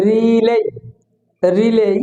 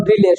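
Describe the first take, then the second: First: "রিলে" with long ree and -ley; correct pronunciation. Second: "রিলে" said short and even; wrong pronunciation. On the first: Teacher models rely for students, drawn-out "রিলে". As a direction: stretch the first vowel of "রিলে". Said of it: "সঠিক উচ্চারণ হবে". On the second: Teacher shows the mistake, short "রিলে". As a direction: say "রিলে" quickly, short first vowel. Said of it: "এটা ভুল উচ্চারণ". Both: Shown as a demonstration.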